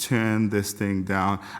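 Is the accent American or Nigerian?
American. It is said in an American accent. "this would be my American way of saying it"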